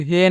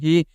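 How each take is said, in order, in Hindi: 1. स्वर 'eh' जैसा सुनाई देता है। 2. स्वर 'ee' जैसा सुनाई देता है। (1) "इसे आपको हे नहीं पढ़ना दोस्तों" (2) "इसे आपको क्या पढ़ना है"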